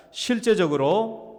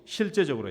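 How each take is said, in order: First: 실제적으로 stretched out slowly and louder, rising at the end; 실제적으로 천천히 힘주어; slow stressed 실제적으로. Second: Said in the usual way. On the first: Shown as a demonstration. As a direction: draw out 실제적으로 with a lifted ending. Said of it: "한 번 더, 실제적으로". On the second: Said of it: "시작".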